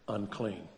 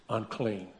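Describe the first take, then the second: No difference in how they are said.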